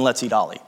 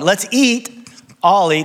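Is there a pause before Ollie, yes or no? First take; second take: no; yes. First: There is no pause before Ollie. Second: There is a pause before Ollie.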